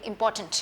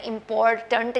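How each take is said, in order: First: Important blended, R nearly silent; soft R in important. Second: Important split up with the R sounded; wrong important, pronouncing R and "tant" fully; hard R in important. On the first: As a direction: say important correctly with R melted in. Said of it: "मैं कह रही हूँ". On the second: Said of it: "नहीं कह रही हूँ". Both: Shown as a demonstration.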